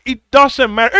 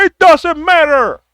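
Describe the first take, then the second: First: Said in the usual way. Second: Higher, slower, stressed "doesn't"; emphatic repeat. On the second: Real, not acted. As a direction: stress "doesn't" hard the second time.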